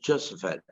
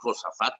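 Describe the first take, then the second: First: The name is said the American English way. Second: The name is said the Mexican Spanish way. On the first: "los gringos le decimos Josaphat" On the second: "los mexicanos le decimos Josafat"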